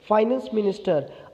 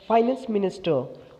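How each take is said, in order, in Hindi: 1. 'finance' का पहला syllable 'fie' जैसा सुनाई देता है। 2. 'finance' का पहला सिलेबल 'fie' जैसा सुनाई देता है।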